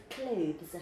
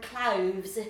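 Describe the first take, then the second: First: Said in the usual way. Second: "cloves" with a v for the th; imitated Cockney pronunciation. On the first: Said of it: "instead of clothes". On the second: Tess showing her friend's accent, "cloves" with a v sound. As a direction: mimic Cockney clothes as "cloves". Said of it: "and cloves instead of clothes".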